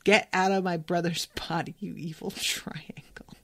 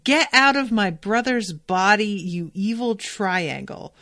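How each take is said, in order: First: Whispered through a laugh, trailing off; a playful hushed quote that fades. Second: Retold yell. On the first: Retold or imitated. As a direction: breathe the last words with a giggle. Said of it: "I'm gonna yell that at him". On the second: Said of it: "she's yelling".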